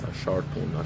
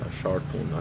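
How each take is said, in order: First: The middle consonant sounds like an R. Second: The middle consonant sounds like an R.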